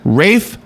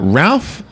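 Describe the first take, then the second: First: The name is said without L, like 'Rafe'. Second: The name is said with an L, like 'Ralph'. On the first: The speaker calls it right. "pronounced. Are you ready for this?" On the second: The speaker calls it wrong. "I'm absolutely saying it wrong"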